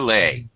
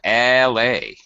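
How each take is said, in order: First: The vowels are said at normal length. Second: The vowel sound is stretched out long.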